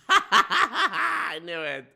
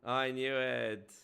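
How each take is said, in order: First: Laughing through it, slow, higher; cracking up as you say it. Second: Said in the usual way. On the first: Real, not acted. Streamer bursts out laughing.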